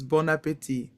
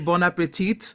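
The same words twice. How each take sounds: First: The final T sound is silent. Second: The final T sound is pronounced. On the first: The speaker calls it right. "in French, we don't say that T. It's bon appetit" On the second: The speaker calls it wrong. "when people say bon appetit, you know, because there's a T at the end of that word"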